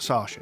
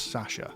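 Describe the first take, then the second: First: Sasha is said with an American accent. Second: Sasha is said with a British accent. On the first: The speaker calls it wrong. "It's not Sasha" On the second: The speaker calls it right. "it's Sasha"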